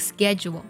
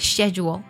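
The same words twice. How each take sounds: First: It is said with an American pronunciation. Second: It is said with a British pronunciation. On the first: "这样的发音是在美式发音当中比较常见的" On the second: "在英式的发音当中呢直接呢将sch 读作了shed 的音了"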